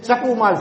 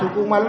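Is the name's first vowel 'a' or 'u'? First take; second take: a; u. First: The first syllable has an 'a' vowel. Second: The first syllable has a 'u' vowel. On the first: The speaker calls it wrong. "અહીંયા અમને સકુમાલ સંભળાવે છે" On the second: The speaker calls it right. "તમે સુકુમાલ નથી બોલતા"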